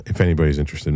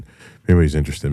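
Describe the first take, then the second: First: Said in the usual way. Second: Louder, faster, pushing on anyway; insistent. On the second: Real, not acted. Insisting on the tip after saying maybe not, louder. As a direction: override your own doubt and press the point. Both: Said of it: "maybe not".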